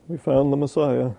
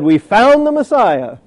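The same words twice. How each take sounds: First: It is said flatly, without energy. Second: It is shouted loudly with enthusiasm. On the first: The speaker calls it wrong. "He didn't say" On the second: The speaker calls it right. "I believe he screamed it with some enthusiasm"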